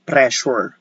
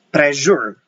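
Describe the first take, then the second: First: The middle consonant sounds like an S. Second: The middle consonant sounds like a Z. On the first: The speaker calls it right. "We say pressure" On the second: The speaker calls it wrong. "we do not pronounce pressure"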